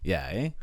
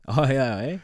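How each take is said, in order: First: Canadian eh. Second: Higher, louder Canadian "eh". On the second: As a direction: lift the eh like a proud Canadian. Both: Shown as a demonstration. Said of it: "We say it all the time".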